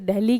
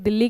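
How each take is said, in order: First: The name is said the foreign way. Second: The name is said the Indian way. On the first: "बाहर के लोग इसे दिल्ली कहते हैं" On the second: "हम इसे दिल्ली कहते हैं"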